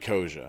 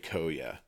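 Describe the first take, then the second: First: The middle consonant is a 'j' sound. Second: The middle consonant is a 'y' sound. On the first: "It might be Koja" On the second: "I always have said Cathay Koya"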